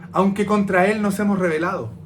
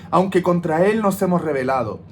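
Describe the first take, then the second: The two takes are said the same way.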